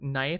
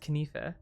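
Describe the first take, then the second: First: The k at the start is silent. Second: The k at the start is pronounced.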